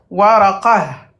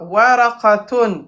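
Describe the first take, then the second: First: The word stops short, ending in a soft 'h'. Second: The word ends with a full '-tun' ending.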